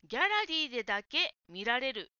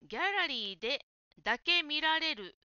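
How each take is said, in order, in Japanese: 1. 「ギャラリーでだけ」は途切れず、一つのまとまりで言う。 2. 区切りが「ギャラリーで」と「だけ」を分けている。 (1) "ギャラリーでだけが一つの言葉です" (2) "[name]がギャラリーでだけ見られると言っていたところですが"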